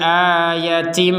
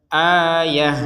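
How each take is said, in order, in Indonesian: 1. Kata itu berakhir dengan bunyi t. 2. Kata itu berakhir dengan bunyi h. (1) "maka kembali menjadi huruf ta" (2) "terbaca sebagai huruf h karena berhenti"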